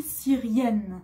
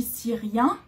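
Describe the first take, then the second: First: Syrienne with a clear n sounded at the end; teacher models syrienne with the n pronounced; feminine syrienne. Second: Syrien ending on a nasal vowel, no final n; teacher models syrien with a nasal ending; masculine syrien. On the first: Teacher drilling the feminine form, n sounded. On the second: Teacher drilling the masculine form, nasal ending. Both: Shown as a demonstration. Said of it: "Pour la Syrie".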